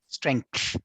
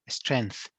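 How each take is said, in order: First: It is said with a k sound. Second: It is said without a k sound. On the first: The speaker calls it right. "it is actually strength, strength, k sound" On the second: The speaker calls it wrong. "a lot of students say the strength"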